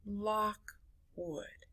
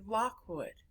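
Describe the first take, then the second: First: Lockwood split softly into lock, wood; two quiet, separate beats in Lockwood; syllable by syllable. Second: Said in the usual way. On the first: Shown as a demonstration. Teacher doing their own name, Lockwood broken in two. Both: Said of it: "let's do my name".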